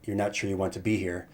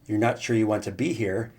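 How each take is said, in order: First: The voice falls at the end. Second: The voice rises at the end. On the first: It is stated as a reflection. "when you make the statement" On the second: It is asked as a question. "your voice kind of goes up at the end because you're asking a question"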